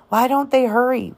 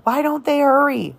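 First: Anxious muttering. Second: Higher, more desperate second time; more urgent repeat. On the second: Jem repeats to himself, watching the fire, more desperate. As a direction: push the repeat harder. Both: A narrator's reading. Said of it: "muttered Jem".

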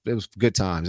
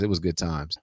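First: Said in the usual way. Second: Soft nostalgic repeat; quiet fond echo. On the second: Real, not acted. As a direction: lower and softer, trailing off. Fond echo of his own line.

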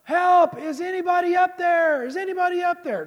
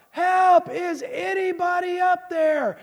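First: High, loud call up the cliff; high-pitched desperate holler; yelling for help. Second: High, drawn-out full shout; long, loud, high cry for help; yelling louder for help. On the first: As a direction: shout upward, stretched out, hoping someone hears. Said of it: "And he's yelling". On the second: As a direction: holler it up the cliff, stretching the words. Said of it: "he yells louder". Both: Acted.

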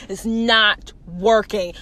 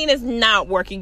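First: NOT and WORKING stretched out slowly; emphatic repeat. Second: Said in the usual way. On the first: Acted. Man telling guard off, NOT WORKING slow and emphatic. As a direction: say "not working" slowly, each word separate.

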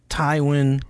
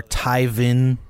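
First: Tywin said slowly as TIE-win. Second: Tywin said as TIE-vin. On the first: Host lists the similar Lannister names, Tywin said TIE-win. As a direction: say Tywin with a clear w in the middle. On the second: Host lists the similar Lannister names, Tywin said TIE-vin. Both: Shown as a demonstration. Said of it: "T Y V I N".

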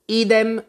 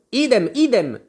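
First: High, louder one-word answer; Tweedledum's quick reply. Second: High, louder repeated squeal; shrieked echo. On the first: Tweedledum answers Alice, high quick reply. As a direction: pipe it up once. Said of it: "disse Tweedledum". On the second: Tweedledee echoes his brother, mildly shrieking. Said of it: "strillò Tweedledee". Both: A narrator's reading.

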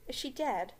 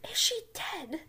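First: Said in the usual way. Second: Put-on higher, louder shrieking girl; Hermione voice. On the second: Hermione panics over McGonagall, higher louder shriek. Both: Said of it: "no, sorry, wait".

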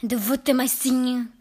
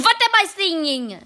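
First: Witch voice, fairly even pitch; witch's question. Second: Higher, much louder repeated demand; witch's insistent question. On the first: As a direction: pose the question as a haughty witch. Witch asks the first time. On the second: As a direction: demand an answer as an angry witch. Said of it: "I am asking you". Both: A narrator's reading.

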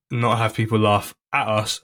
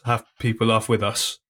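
First: "at" picked out as the key word; stress on AT. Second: "with" picked out as the key word; stress on WITH. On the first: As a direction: lean on "at" to mark the contrast. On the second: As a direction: lean on "with" to answer the contrast. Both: Real, not acted. Contrasts laughing at with laughing with.

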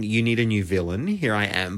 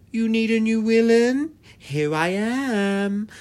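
First: Said in the usual way. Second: Put-on high, loud European-accented villainess, ending drawn out; hammed-up European accent, slow on the last words; imitated European accent. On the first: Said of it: "But in her accent". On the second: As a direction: announce yourself grandly in a mock European accent. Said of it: "she's obviously got this accent".

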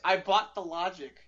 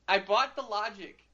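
First: Said in the usual way. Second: Laughing at himself as he repeats it; rueful laugh on the words. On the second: Real, not acted. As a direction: chuckle through the admission.

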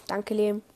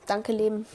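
The two takes are said the same way.

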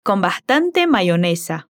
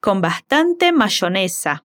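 First: Mayonesa with the Y said like an i, "maionesa". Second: Mayonesa with the Y said as sh, "mashonesa"; Juan's sh Y. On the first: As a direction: say mayonesa with an i glide, not sh. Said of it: "no pronuncia la Y con sonido de sh, sino como si fuera una I". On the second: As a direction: say mayonesa the Rioplatense way, with sh. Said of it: "Si fuera Juan diciendo eso, tal vez lo dijera así". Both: Shown as a demonstration.

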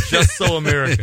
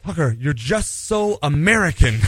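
First: Louder mock movie-trailer announcement; grand title announcement. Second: Imitating the reporter, mildly exasperated and slower; a hint of weary exasperation, drawn out; frustrated. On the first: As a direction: proclaim it like a book title on a cover. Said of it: "That's the name of my autobiography". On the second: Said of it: "she finally got really frustrated with me".

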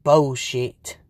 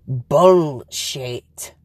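First: BULLSHIT with the first syllable as "bowl"; own odd pronunciation. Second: BULLSHIT slow, both syllables pulled apart with a clear "bull"; careful pronunciation. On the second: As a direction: say BULLSHIT slowly and fully, "bull ... shit". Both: Shown as a demonstration. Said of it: "But I'm saying it bullshit".

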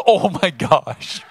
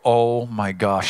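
First: Higher and louder, slow, laughing through it; giggly toddler imitation. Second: Said in the usual way. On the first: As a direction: mimic the little one giggling back at dad. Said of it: "She goes". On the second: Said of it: "I go".

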